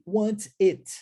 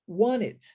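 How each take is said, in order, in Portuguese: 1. O som do T é claramente pronunciado. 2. O som do T é omitido, as palavras se misturam. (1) "Ao invés de" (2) "omitirmos o som do T. Então a gente fala want it"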